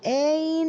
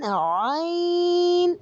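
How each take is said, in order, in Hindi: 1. पहला स्वर छोटा और झटके वाला है। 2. पहला स्वर खींचकर लंबा है। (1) "ऐन नहीं होगा।" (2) "लंबा करके पढ़ा करें इसको।"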